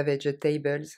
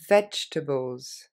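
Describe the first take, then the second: First: "vegetables" said the French way as four syllables, ve-ge-ta-bles; "vegetables" with every syllable spelled out, ve-ge-TA-bleu; "vegetables" in a French reading, each letter sounded; wrong pronunciation. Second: "vegetables" said slowly as three syllables, VEDGE-tuh-bulz; "vegetables" with the middle e swallowed, vedge-tables; "vegetables" clipped to three beats, careful and slow; right pronunciation. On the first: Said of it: "parce que c'est pas vegetables". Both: Shown as a demonstration.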